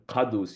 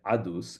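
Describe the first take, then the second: First: It starts with a deep q sound. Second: It starts with a glottal stop. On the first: "a qa in the back of the throat" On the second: "it becomes a glottal stop"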